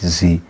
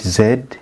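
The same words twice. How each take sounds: First: The letter is pronounced as 'zee'. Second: The letter is pronounced as 'zed'. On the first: This is the American way of saying it. "In U S A, they call it Z" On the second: This is the Ugandan way of saying it. "In Uganda, we call it Z"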